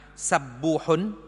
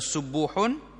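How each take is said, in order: First: The first vowel is a. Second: The first vowel is u. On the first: "bagi di atas" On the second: "baca depan"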